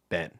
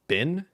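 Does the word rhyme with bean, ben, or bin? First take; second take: ben; bin. First: The word has a short 'e' vowel, like Ben. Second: The word has a short 'i' vowel, like bin. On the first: "Or is it ben?" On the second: "is it bin?"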